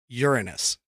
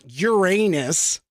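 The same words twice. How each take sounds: First: It does not sound like 'your anus'. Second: It sounds like the phrase 'your anus'. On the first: The speaker calls it right. "it is actually pronounced Uranus" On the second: The speaker calls it wrong. "it's not Uranus, like as in your butthole"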